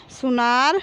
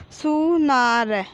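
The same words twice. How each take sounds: First: Said in the usual way. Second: Slow, stretched सु, ना, र, falling at the end; drawn-out teaching reading of सुनार; syllable by syllable. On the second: Shown as a demonstration. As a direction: sound out सुनार piece by piece. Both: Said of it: "तो हम इस प्रकार पढ़ेंगे".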